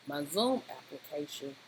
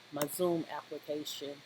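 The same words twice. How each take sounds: The two takes are said the same way.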